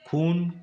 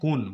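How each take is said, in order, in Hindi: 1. यह शब्द महाप्राण ख ध्वनि से शुरू होता है। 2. यह शब्द सादे क ध्वनि से शुरू होता है।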